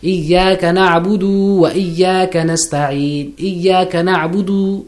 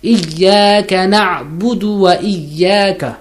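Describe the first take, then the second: First: The common error, stretching the last syllable; wrong version, extended dal. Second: إياك نعبد with a short, clipped dal; correct, no extension. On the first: Teacher imitating the incorrect reading. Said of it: "This is incorrect". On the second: Teacher giving the correct reading. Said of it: "I've not extended it". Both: Shown as a demonstration.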